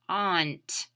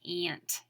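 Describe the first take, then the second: First: The vowel is said as an 'aw' sound. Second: The vowel is not said as an 'aw' sound. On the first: "We know that the A U says aw, so let's read this slowly" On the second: "How do we sometimes say aunt? We say it by saying aunt"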